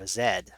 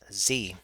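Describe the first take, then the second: First: The letter is said the British way, zed. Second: The letter is said the American way, zee.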